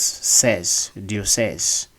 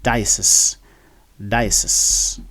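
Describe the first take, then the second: First: Diocese as French "dee-o-SEZ", lengthened ending; French pronunciation. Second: Diocese as DIE-uh-sis, short ending; English pronunciation. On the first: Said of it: "because in French". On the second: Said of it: "this word is actually pronounced as". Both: Shown as a demonstration.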